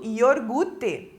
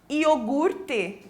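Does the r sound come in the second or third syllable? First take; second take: second; third. First: The r sound is moved to the second syllable. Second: The r sound is in the third syllable. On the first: The speaker calls it wrong. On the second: The speaker calls it right.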